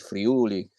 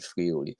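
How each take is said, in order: First: The stress falls on the u syllable. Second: The stress falls on another syllable. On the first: The speaker calls it right. "ha bisogno di mettere l'accento sulla U" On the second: The speaker calls it wrong. "non come, mhmm, Paolo sesto dirà"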